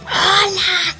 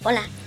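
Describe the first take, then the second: First: It is shouted loudly. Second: It is said softly and nicely.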